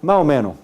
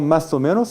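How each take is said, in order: First: The s sounds like a breathy h. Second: The s sound is fully pronounced. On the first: "se pronuncia aspiración. H" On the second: "no se pronuncia esta palabra como más o menos"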